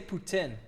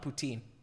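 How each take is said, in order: First: The word is pronounced the Quebec French way. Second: The word is pronounced the English way. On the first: The speaker calls it right. "But I do say poutine" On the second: The speaker calls it wrong. "not poutine"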